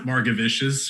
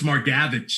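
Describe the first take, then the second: First: The name ends with a 'vicious' sound. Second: The name ends with a short 'vich' sound. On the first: The speaker calls it wrong. "I always want to call him Margavicious" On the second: The speaker calls it right. "it's Margavich is it's something. It's closer to that"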